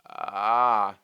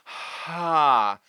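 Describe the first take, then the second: First: The vowel starts with a creaky, crackling fry. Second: Air flows audibly before the vowel begins. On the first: "There is a vocal fry where we start with fry" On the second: "There is an aspirate where we're letting the air move through first"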